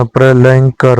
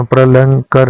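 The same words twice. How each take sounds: First: प्रलयंकर with a clear य; correct form. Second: प्रलंकर without the य sound; wrong form. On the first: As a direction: say प्रलयंकर, pronouncing the य. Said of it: "प्रलयंकर होता है". (सही उच्चारण प्रलयंकर, य साफ़) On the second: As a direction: say प्रलंकर, dropping the य. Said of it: "प्रलंकर नहीं होता है". (गलत उच्चारण प्रलंकर, बिना य के) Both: Shown as a demonstration.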